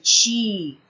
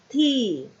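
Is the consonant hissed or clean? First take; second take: hissed; clean. First: The t is hissed like ch. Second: The t is clean with no hiss. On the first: The speaker calls it wrong. "o nosso sotaque paraense tem bastante chiado. Então, a gente acaba falando ti" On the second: The speaker calls it right. "Nós queremos um som limpo"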